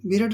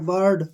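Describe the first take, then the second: First: The vowel is a clear short 'i' sound. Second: The vowel is a neutral 'er' sound. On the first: The speaker calls it wrong. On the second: The speaker calls it right.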